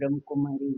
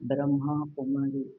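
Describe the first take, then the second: First: The vowel at the end of Brahma is short. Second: The vowel at the end of Brahma is long. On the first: The speaker calls it wrong. "Short ಆಗಿ ಬಂದ್ಬಿಡುತ್ತೆ" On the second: The speaker calls it right. "ಅಲ್ಲ"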